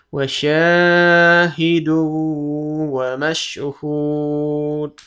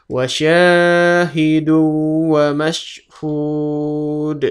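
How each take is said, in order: No difference in how they are said.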